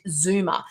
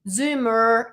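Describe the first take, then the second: First: It is said in a non-American accent. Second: It is said in an American accent. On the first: "I don't pronounce it the way that it's meant to be" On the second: "if I was to say it in American"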